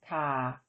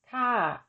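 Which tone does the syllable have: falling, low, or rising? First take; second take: low; falling. First: The syllable is said with a low tone. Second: The syllable is said with a falling tone. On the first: "With tone mark one, the tone is low" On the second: "With tone mark two, the tone is falling"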